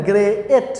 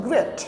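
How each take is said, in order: First: "গ্রেট" broken in two, gre-et; split into two syllables. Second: "গ্রেট" as one single syllable, gret; one-syllable "গ্রেট", vowel not split. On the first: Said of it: "আমরা বলি না". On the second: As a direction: say "গ্রেট" in a single beat, unbroken. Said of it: "একবারে বলছি". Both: Shown as a demonstration.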